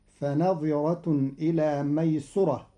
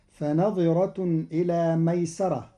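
First: ميسرة with a damma on the sin, maysura; Qalun reading. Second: ميسرة with a fatha on the sin, maysara; Hafs reading. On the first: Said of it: "قرأ قالون كلمة ميسرة بضم السين". (ميسرة بضم السين) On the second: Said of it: "بضم السين". (ميسرة بفتح السين) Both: Shown as a demonstration.

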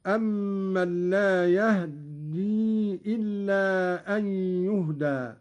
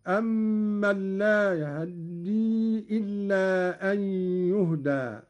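First: يهدي with a vowelless h before a doubled d; still ha, no vowel. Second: يهدي with a very quick, partial a after the h; snatched vowel on ha. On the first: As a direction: recite يهدي as yah-ddi, h closed straight onto the dd. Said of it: "الإسكان". (إسكان الهاء في يهدي مع تشديد الدال) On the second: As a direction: recite يهدي as ya-hă-ddi, barely touching the short a. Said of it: "والاختلاس". (اختلاس فتحة الهاء في يهدي بسرعة) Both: Shown as a demonstration.

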